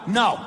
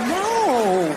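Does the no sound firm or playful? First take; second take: firm; playful. First: It sounds firm and serious. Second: It sounds coy and playful.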